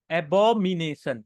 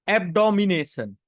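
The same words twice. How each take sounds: First: एबोमिनेशन said slowly with no d sound; carefully fix it to एबोमिनेशन; corrected pronunciation. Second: एबडोमिनेशन said with a d after एब; mistaken pronunciation. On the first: Teacher correcting herself for the class, slow and careful. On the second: Teacher reading vocabulary to class, misspeaks the word. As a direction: slip into एबडोमिनेशन with an extra d. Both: Real, not acted. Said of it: "नहीं, एबो-, अ, sorry".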